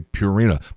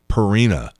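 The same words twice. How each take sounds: First: The first syllable sounds like the word pure. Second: The first syllable does not sound like pure. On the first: The speaker calls it right. "It includes the word pure, as in Purina" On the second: The speaker calls it wrong. "all these guys are saying Purina"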